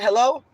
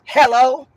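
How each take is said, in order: First: It is said in a plain, polite tone. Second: It is said with a rude attitude.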